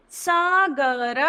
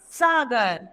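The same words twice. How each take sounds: First: Sagar drawn out slowly, syllable by syllable; slow syllable reading. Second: Said in the usual way. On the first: Shown as a demonstration. Teacher modelling Sagar slowly for children. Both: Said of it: "इन उदाहरण को पढ़ते हैं हम".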